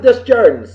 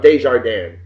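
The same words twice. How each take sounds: First: Desjardins as dess-JAR-dens, s's sounded; anglicized Desjardins. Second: Desjardins as day-zhar-DAN, French ending; French-style Desjardins. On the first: Host giving his friend's own pronunciation, Desjardins said English-style. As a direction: say Desjardins English-style, every consonant heard. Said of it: "but you pronounce it". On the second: Host giving the pronunciation he had assumed, Desjardins said French-style. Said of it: "I always thought it was". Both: Shown as a demonstration.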